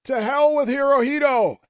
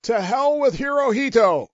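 First: Mock yell. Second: Raised, higher battle cry; a sergeant demonstrating the yell; mock yell. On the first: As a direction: yell it from the hilltop. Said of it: "I yelled at the top of my voice". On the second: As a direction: shout it like a rallying cry. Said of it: "you yell at the top of your voice".

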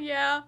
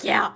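First: Said in the usual way. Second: Louder, abrupt retold yeah; panicked yeah. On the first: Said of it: "I didn't say it like that". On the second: Librarian correcting how she answered the road worker, panicked yeah. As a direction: fire it off as if flustered and running. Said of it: "running, and I was panicked".

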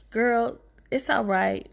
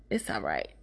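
First: Said in the usual way. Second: Unvoiced whispered repeat; soft secret whisper to a friend. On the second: Real, not acted. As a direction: hush it like a private reassurance. Reassuring the older woman.

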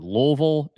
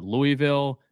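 First: Louisville said as two slurred syllables, LOO-vul; local pronunciation. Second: Louisville said as LOO-ee-vill; full pronunciation. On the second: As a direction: give Louisville a clear EE in the middle: LOO-ee-vill. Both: Shown as a demonstration. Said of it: "What's the correct pronunciation".

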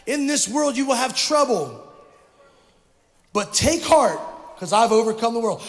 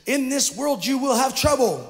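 First: Louder for the back rows; louder repeat. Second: Said in the usual way. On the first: Real, not acted. Pastor repeating for the back rows, louder. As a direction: project it to the back of the room. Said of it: "say it again for those of you in the back". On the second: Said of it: "Let me say it again".

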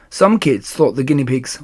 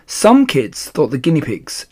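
No difference in how they are said.

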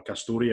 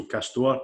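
First: "Castore" in three syllables, ending like "story"; pronounced Cas-tor-ee. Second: "Castore" ending on a plain "-tore", no final ee; pronounced Cas-tore. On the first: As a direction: say "Castore" with an extra final ee. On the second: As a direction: say "Castore" in two syllables, ending like "store". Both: Shown as a demonstration. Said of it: "or however you wanna call it".

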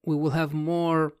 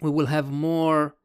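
No difference in how they are said.

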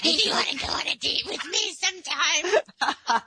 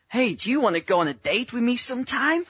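First: Host echoing the cringey date request, mocking; mocking awkward ask-out. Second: Higher, slightly hammed-up nervous ask; mock the clumsy guy asking her out; awkward mock ask-out. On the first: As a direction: overdo the creepy guy's request. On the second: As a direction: coach mocking a clumsy date request, hammed-up. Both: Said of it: "Especially in that tone".

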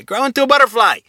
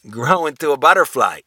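First: Much higher, louder urging call; emphatic encouragement. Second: Said in the usual way. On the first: Shown as a demonstration. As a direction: cheer the listener on to grow. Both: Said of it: "But say a butterfly".

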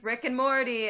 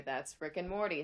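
First: Loud. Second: Said in the usual way. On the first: Real, not acted. Calls out show name.

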